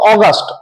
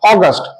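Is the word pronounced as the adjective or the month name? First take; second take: month; month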